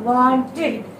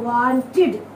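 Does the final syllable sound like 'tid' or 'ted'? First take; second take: tid; tid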